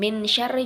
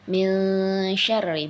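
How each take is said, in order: First: The n is pronounced fully and clearly. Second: The n is concealed with a light nasal sound. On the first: The speaker calls it wrong. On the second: The speaker calls it right.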